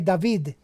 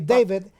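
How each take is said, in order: First: The name has a Cuban Spanish pronunciation. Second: The name has an American English pronunciation. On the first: "the Cubans say David" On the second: "the Americans say David"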